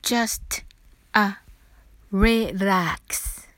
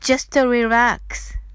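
First: It is said slowly. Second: It is said fast.

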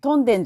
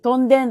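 First: It uses the non-Hokkaido pitch pattern. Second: It uses the Hokkaido pitch pattern.

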